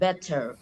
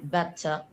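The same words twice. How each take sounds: First: The final R sound is clearly pronounced. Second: The final R sound is dropped. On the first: "in U S pronunciation, they pronounce the R perfectly" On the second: "U K, like British accent, they don't pronounce the R"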